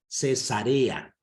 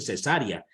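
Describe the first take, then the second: First: The stress falls on the syllable re. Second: The stress falls on the syllable sa. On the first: It names the city honoring Caesar. The speaker calls it right. "Cesarea, Cesarea, ¿no?" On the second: It names the surgical birth, not the city. The speaker calls it wrong. "no le ponen bien la tilde, en vez de decir Cesarea, dicen cesárea"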